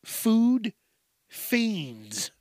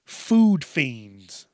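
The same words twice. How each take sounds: First: FOOD high, a pause, then fiends dropping; emphatic repeat. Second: FOOD hit louder, then fiends falling away; emphatic. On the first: Repeating the crazy label for effect, emphatic and separated. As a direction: split "food ... fiends" into two drawn-out words. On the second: Comic warning about kids on junk food, emphatic. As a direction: land "food fiends" as one punchy phrase. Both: Real, not acted. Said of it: "I had to say it again".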